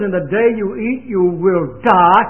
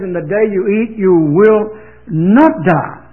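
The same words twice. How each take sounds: First: God's stern warning. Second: Slow and louder, leaning hard on not; devil's contradiction. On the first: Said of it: "God says". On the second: Preacher voicing the devil contradicting God, slow, loud "not". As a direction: drag out "you will not die" with "not" punched loud. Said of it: "The devil says". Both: Retold or imitated.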